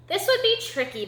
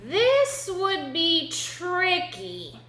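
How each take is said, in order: First: Said in the usual way. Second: Very slow, raised-pitch suspense; slow, high storyteller's warning; dramatic drawn-out. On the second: A narrator's reading. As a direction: stretch out THIS and TRICKY dramatically. First, dramatic take of repeated line.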